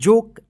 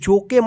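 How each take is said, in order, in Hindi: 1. यह शब्द बिना अंतिम स्वर ध्वनि के खत्म होता है। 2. यह शब्द एक अतिरिक्त स्वर ध्वनि पर खत्म होता है। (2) "इसका जोके मत पढ़िएगा"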